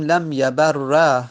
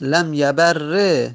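First: Slow "لم یبر" ending in doubled r plus long a; eloquent fatha ending. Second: Slow "لم یبر" ending in doubled r plus long e; allowed kasra ending. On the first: Teacher showing the eloquent form, "یبر" said yabar-ra. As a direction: finish "لم یبر" on a held "ra". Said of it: "این فصیح هست". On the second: Teacher showing the other allowed form, "یبر" said yabar-re. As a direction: finish "لم یبر" on a held "re". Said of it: "فقط کسره یا فتحه". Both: Shown as a demonstration.

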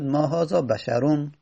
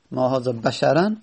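First: بشرون ending in a nominative "-un"; Tamimi case ending. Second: بشرا ending in "-an"; accusative fatha ending. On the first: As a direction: end بشرون on "-un", not "-an". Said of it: "لغت تمیم بود". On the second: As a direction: end بشرا on "-an", not "-un". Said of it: "منصوب شده به فتحه". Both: Shown as a demonstration.

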